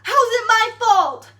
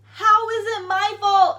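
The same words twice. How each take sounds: First: Much higher and louder, outraged; exasperated outcry. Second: Loud, slow, stressing "How is it my fault"; slower indignant repeat. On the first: The teacher demanding how it's her fault, loud outraged shout. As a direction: shout the question in disbelief. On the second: The teacher repeating her point, slow and indignant. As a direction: drag it out, indignant. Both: Retold or imitated. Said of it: "She's like".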